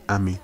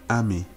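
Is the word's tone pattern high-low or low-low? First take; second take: low-low; high-low. First: Both syllables are on a low tone. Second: The first syllable is high, the second low. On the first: It means I. "Two low tones" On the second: It means this. "So a high tone and a low tone"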